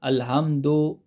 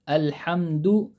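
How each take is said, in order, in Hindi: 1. आखिरी अक्षर 'o' स्वर के साथ बोला जाता है। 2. आखिरी अक्षर 'u' स्वर के साथ बोला जाता है। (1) "पढ़ने में लोग गलती करते हैं अल्हम्दु, तो वो पढ़ने में दो निकलता" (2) "दाल दम्मा दू"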